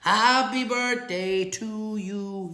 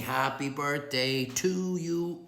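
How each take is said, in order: First: Slow, high, loud sung line; sung, mock birthday singalong, louder now; singing happy birthday. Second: Slow sung birthday line; sung, mock birthday singalong; singing happy birthday. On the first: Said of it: "Oh, now you say it". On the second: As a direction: croon it slowly like the birthday song. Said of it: "And I'm saying".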